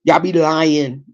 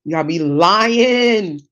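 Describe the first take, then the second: First: Said in the usual way. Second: LYING stretched out long and slow; drawn-out emphasis. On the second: Real, not acted. Disputing New York style pizza claims, LYING drawn out. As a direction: drag out "lying" to drive it home.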